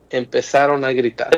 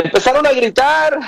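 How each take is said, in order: First: Said in the usual way. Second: Pitched well up for emphasis; emphatic high-pitched repeat; raised emphasis. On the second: Real, not acted. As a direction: lift the voice high to evoke shouting. Repeats it raised, evoking the shouting.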